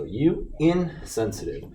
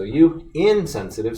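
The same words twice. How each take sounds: First: A pause between IN and SENSITIVE in "insensitive"; "insensitive" split in two. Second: "insensitive" as one linked word, IN stressed; "insensitive" joined up. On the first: Teacher reading the student's error, "insensitive" broken after IN. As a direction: say "insensitive" slowly as two separate words, in, sensitive. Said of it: "in is actually a prefix that needs to be attached".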